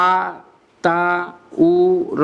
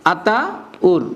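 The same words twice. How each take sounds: First: "Ataur" very slowly as আ, তা, উ, র; four drawn-out, separate pieces of "Ataur"; broken into smallest syllables. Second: "Ataur" as two chunks, আতা then উর; split in two. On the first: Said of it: "আবার ভাঙাইতে পারো". ("আতাউর" টুকরা টুকরা করে: আ, তা, উ, র) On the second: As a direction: pause inside "Ataur" after আতা. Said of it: "এভাবে ভাঙাইতে পারো". ("আতাউর" দুই ভাগে: আতা, উর) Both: Shown as a demonstration.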